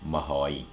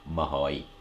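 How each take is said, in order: First: It is shortened to ma plus hoi with H. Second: The same.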